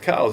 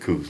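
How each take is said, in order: First: The name rhymes with cows. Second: The name rhymes with goose. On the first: This is how the man himself said his name. The speaker calls it right. "the guy's name was pronounced Cows" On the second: This is the popular version most people use. The speaker calls it wrong. "Everybody calls it coos"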